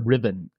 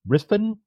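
First: The name is said with a v sound. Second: The name is said with an f sound. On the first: "Or Riven" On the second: "the correct pronunciation is Riffin"

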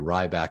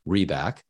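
First: The first syllable sounds like 'rye'. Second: The first syllable sounds like 'ree'. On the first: The speaker calls it wrong. "People frequently will say Ryback" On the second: The speaker calls it right. "instead of Reback"

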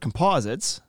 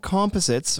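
First: It is pronounced the way Americans say it. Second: It is pronounced the speaker's own, non-American way. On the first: The speaker calls it wrong. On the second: The speaker calls it right.

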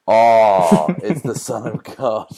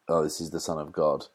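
First: The opening 'oh' is drawn out like 'aww'. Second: The line is said plainly, without awe.

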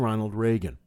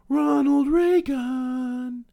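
First: The name is said in a plain, neutral way. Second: The name is said in a grand, reverent way. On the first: It is just a name. The speaker calls it wrong. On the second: The person is treated as a god. The speaker calls it right.

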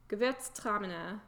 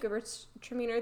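First: The name is said with a German accent. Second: The name is said with an American accent. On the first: The speaker calls it right. "when you'd say it with a German accent" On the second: The speaker calls it wrong. "I have gotten so Americanized with that name"

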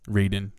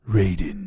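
First: It is said in a plain, normal voice. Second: It is said in a put-on dramatic voice.

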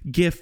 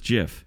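First: The word begins with a hard g sound. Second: The word begins with a j sound. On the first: This is how most people say it. "it's just common practice to say GIF" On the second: This is the officially correct way. "JIF is the correct way"

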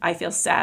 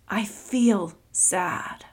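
First: It is said quickly and flatly, by rote. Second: It is said slowly and with real emotion. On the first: The speaker calls it wrong. "So not rotely" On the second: The speaker calls it right. "Not like that"

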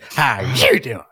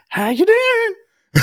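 First: It is said in a mad, irritated tone. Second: It is said in a pleased, agreeing tone. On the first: The speaker is annoyed by what is happening. "if she was really pissed ... She would get mad and say it like that" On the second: The speaker approves of what is happening. "if she was watching a show and she was agreeing with what was happening, it would be like"

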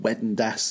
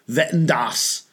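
First: It is said with a plain English accent. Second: It is said with an exaggerated German accent.

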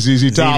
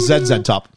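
First: Z is said the American way, 'zee'. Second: Z is said the Canadian way, 'zed'.

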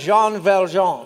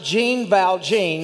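First: The name is said with a French-like pronunciation. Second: The name is said with a West Texas pronunciation. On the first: The speaker calls it right. "It's Jean Valjean" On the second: The speaker calls it wrong. "That's the way we would say it in West Texas"

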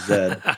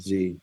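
First: It is said the Canadian way, as zed. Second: It is said the American way, as zee.

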